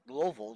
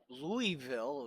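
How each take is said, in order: First: It is said the way locals say it. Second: It is said the way outsiders say it. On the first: "which they pronounce it Louisville down there" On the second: "which is the how everybody else who does not live there pronounce it"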